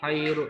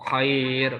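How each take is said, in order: First: The vowel is short, ending with a short u. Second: The vowel is drawn out long, ending on r. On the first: The word continues without a pause. "itu enggak panjang" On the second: The word is at a pause. "dibaca panjang itu ya karena karena wakof"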